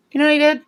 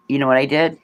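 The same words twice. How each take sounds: First: Excited squeal. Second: Said in the usual way. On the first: Real, not acted.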